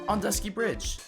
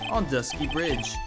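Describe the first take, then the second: First: A lighter, more refined character voice is used. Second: A deeper, heavier character voice is used. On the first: The speaker calls it right. "Edgeworth is more refined" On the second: The speaker calls it wrong. "I'm using the wrong voice"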